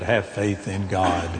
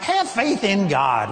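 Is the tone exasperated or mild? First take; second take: mild; exasperated. First: It is said in a mild, gentle tone. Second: It is said in an exasperated, rebuking tone.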